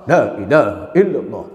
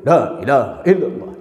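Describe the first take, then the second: Both takes have the same delivery.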